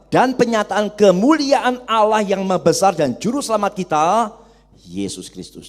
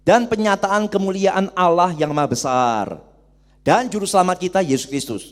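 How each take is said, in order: First: There is a pause before 'Yesus Kristus'. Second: There is no pause before 'Yesus Kristus'. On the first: Jesus himself is the great God and savior. The speaker calls it right. "Bacanya benar adalah" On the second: God and the savior are two different persons. The speaker calls it wrong. "Jadi bacanya bukan begini. ... Salah bacanya"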